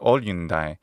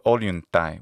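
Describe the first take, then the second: First: The middle consonants are an n plus d sound. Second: The middle consonants are an n plus t sound. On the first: The speaker calls it wrong. "or olyundai" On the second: The speaker calls it right. "instead of olyuntai with a ta sound, with the ancient tau sound"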